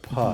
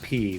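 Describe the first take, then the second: First: The syllable has a short uh vowel. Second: The syllable has a long ee vowel. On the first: The speaker calls it right. "but puh" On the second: The speaker calls it wrong. "Not P"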